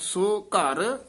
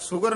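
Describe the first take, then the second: First: The two words are drawn out and lengthened. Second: The two words are run together quickly. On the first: The speaker calls it right. "ਲਮਕਾ ਕੇ ਬੋਲਣਾ ਹੈ" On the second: The speaker calls it wrong. "ਸੁਗਰ ਨਹੀਂ ਕਹਿਣਾ"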